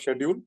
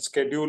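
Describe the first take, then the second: First: The word is said the Indian way. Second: The word is said the American way. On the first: "you're Indian, so schedule works better" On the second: "If you were American, you would have said schedule"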